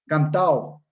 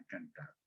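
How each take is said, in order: First: CANTAO with the D dropped, ending in -ao; syncopated pronunciation. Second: Said in the usual way. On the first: Shown as a demonstration. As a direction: say "cantao" loudly, no D before the final O. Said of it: "Palabra con síncopa". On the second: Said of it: "palabra correcta".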